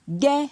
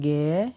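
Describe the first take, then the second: First: The syllable has a high tone. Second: The syllable has a rising tone. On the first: "Avec un ton haut" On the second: "Avec un ton montant"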